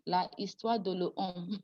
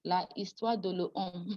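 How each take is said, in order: First: The article keeps its full vowel before histoire. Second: The same.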